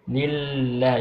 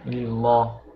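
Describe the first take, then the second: First: The L sound is light and thin. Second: The L sound is heavy and thick. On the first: The speaker calls it right. "it shouldn't sound too heavy, like just very like you can call it like very lenient" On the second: The speaker calls it wrong. "You don't read it like lillah"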